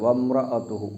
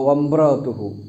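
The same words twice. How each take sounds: First: The m sound is clear and nasal. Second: The m sound is blurred toward a b. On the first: The speaker calls it right. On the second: The speaker calls it wrong.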